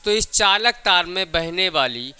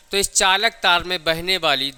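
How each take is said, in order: Both takes have the same delivery.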